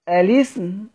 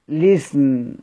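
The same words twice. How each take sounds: First: The word begins with a vowel before the L. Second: The word begins directly with the L sound. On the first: The L is treated as silent, its original state. "نبدأ بهمز الوصل" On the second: The L is treated as carrying the transferred vowel. "باللام"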